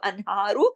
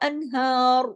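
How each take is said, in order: First: The word ends with a short final vowel. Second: The word ends on a held consonant. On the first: The reading continues into the following words. "अगर मिला के पढ़ेंगे तो" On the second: The reading stops at this word. "अगर हम रुकेंगे तो"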